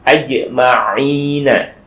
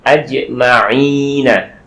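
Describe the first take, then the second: Both takes have the same delivery.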